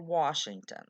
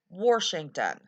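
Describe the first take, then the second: First: The first syllable sounds like wash, without r. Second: The first syllable sounds like worsh, with an r. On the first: This is how the speaker herself says it. The speaker calls it right. "I say Washington. W A S H. Wash" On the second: This is the common local country pronunciation. The speaker calls it wrong. "I do not say Washington. That's a very common pronunciation of Washington here. ... Not W O R S H"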